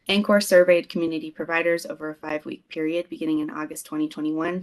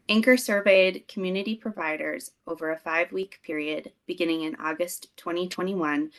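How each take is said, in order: First: It is read fast. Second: It is read slowly.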